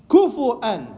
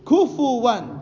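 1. ضمة بعد الفاء، ثم همزة. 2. ضمة بعد الفاء، ثم صوت واو. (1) "الفاء عفوا مضمومة مع الواو المهموزة همزة" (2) "الفاء مضمومة مع الواو"

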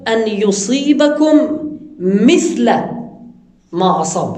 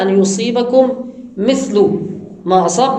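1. تنتهي كلمة mithl بصوت a. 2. تنتهي كلمة mithl بصوت u. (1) "ومنه قراءة بعض السلف" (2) "القراءة المشهورة"

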